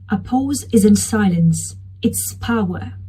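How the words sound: It is said with pauses between phrases.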